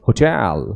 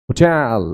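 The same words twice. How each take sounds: No difference in how they are said.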